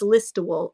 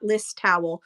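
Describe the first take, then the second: First: The name does not end like 'towel'. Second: The name sounds like 'list' plus 'towel'. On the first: The speaker calls it right. "That's how you say it" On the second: The speaker calls it wrong. "It's not List Towel"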